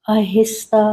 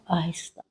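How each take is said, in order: First: Said in the usual way. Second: Aahista repeated almost inaudibly soft; soft trailing echo of Aahista; fading echo. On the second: Shown as a demonstration. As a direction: let Aahista fade out to a near-silent breath. Guided breathing, word repeated.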